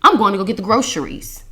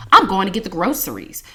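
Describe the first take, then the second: First: "groceries" said GRO-sher-eez at the end; "groceries" with SH instead of S. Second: "groceries" said GRO-sur-eez at the end; "groceries" with S instead of SH. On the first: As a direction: say the sentence with a "sh" in "groceries". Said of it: "It sounds better with groceries". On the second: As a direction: say the sentence with a clean "s" in "groceries". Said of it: "it doesn't sound the same". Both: Shown as a demonstration.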